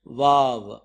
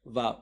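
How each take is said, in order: First: వావ్ said firmly as "vaav"; letter name vav. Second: Said in the usual way. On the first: Shown as a demonstration. Teacher introduces the sixth letter to the class. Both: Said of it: "దీన్ని ఎలా రాస్తున్నాం".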